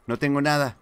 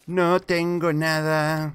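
First: Said in the usual way. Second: Slow, louder and higher, stretched out; long exasperated wail of having nothing; drawn-out complaint. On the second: Real, not acted. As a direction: drag every word out in protest.

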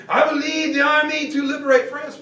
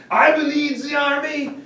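First: Mock grand declaration. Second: Put-on higher, lightly French-accented pronouncement; hint of French general. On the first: French general insisting to Eisenhower, hammed-up French proclamation. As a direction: proclaim it like a liberator. Giraud repeats demand louder. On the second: French general telling Eisenhower he leads, light French accent. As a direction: state it grandly as his right. Giraud demands command.

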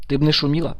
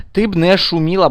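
First: Said in the usual way. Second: "Ти" pushed up, firmer and louder; louder repeat. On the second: Real, not acted. Gamer scolding the noisy girl in game, firmer and louder. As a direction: insist again, raising the voice on "ти".

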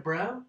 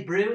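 First: Said in the usual way. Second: "bro" said with an oo vowel, as "bru"; South African "bru". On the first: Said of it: "instead of bro". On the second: Shown as a demonstration. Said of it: "You gonna say bro instead of bro?".

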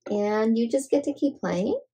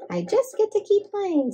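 First: Said in the usual way. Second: Much higher, chirpy bunny answer. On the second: Acted. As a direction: pitch it way up like a happy bunny. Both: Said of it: "says Bunny".

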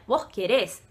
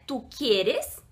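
First: "querés" com acento na última sílaba; forma com vos. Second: Said in the usual way. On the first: Shown as a demonstration. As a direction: diga "querés" terminando tônico em "rés". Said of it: "com o vos, né, ficaria". ("querés" com tônica no final) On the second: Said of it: "no espanhol, né".

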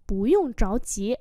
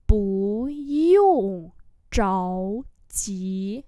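First: Said in the usual way. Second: Very slow, syllable by syllable; slow model reading. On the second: Shown as a demonstration. Teacher modelling Chinese phrases for learners, slow and drawn-out. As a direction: stretch each syllable out for learners.

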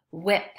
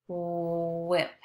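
First: Said in the usual way. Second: "Whip" with a long, level oo-like start; stretched wh sound. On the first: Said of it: "Listen as I say this word". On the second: Shown as a demonstration. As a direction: hold the "Wh" of "Whip", then a quick ip. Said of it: "If you hear the W H sound".

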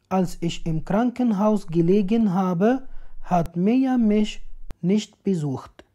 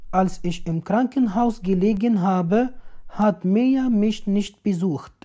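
The two takes are said the same way.

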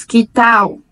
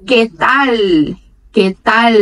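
First: "que tal" with the final L turned into a U sound; Portuguese style "que tal"; Brazilian pronunciation. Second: "que tal" with a clear final L, tongue on the palate; Spanish "que tal" with crisp L. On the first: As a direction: say "que tal" ending like "tau". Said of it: "e pronunciamos que tal". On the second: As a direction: finish "que tal" with the tongue touching the roof of the mouth. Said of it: "aqui eles pronunciam". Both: Shown as a demonstration.

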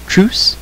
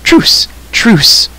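First: High, tentative question; cautious, high query; inquiring. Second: High, urgent plea called out; urgent shouted surrender; calling out. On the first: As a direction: ask timidly, pitched right up. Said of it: "he inquired again". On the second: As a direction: cry for a truce, pitched up. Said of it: "called the stranger". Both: A narrator's reading.

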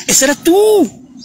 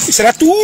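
First: High, slow whimpering taunt; mock crybaby whine. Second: Said in the usual way. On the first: Mocking crybaby repeat. (burla de llorona, aguda y lenta)

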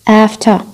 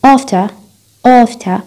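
First: "After" with a front A; American after. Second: "After" with a long back A; long rounded back vowel starting "After"; British after. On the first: Teacher showing American form, front A in "After". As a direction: open front vowel at the start of "After". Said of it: "أمريكي". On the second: Teacher showing British form, back A in "After". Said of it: "بريطاني". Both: Shown as a demonstration.

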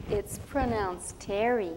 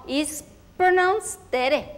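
First: "Terry" lower and slow with an English r; English pronunciation. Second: "Tere" slow with a tapped Spanish r; Spanish pronunciation. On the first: Teacher correcting the child, "Terry" slow and lower. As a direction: insist on "Terry", slow, with an American r. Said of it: "teacher insists on English name". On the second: Girl insisting on her own name, "Tere" with a tapped r. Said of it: "child insists on Spanish name". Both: Retold or imitated.

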